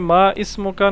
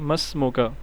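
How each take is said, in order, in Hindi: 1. 'ismuka' का i अलग से बोला जाता है। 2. i छूट जाता है, और यह 'masmuka' में जुड़ जाता है। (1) "नहीं ये माँ इसम का ना" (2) "ये हज़फ हो जाता है, साइलेंट रहता है"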